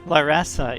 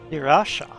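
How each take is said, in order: First: The middle consonant is a plain 's' sound. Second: The middle consonant is a 'sh' sound. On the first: It is the obvious anglicized reading. "Lyrassa is the most obvious thing" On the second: It follows Polish spelling rules. "which would be a Polish pronunciation"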